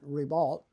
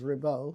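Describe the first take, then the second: First: The name is pronounced with English sounds. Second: The name is pronounced with French sounds.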